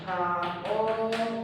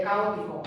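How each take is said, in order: First: Caótico very slowly, every syllable stretched and held apart. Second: Said in the usual way. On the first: Shown as a demonstration. Teacher showing that strong vowels separate, caótico slowly syllable by syllable. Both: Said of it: "por tanto van separadas".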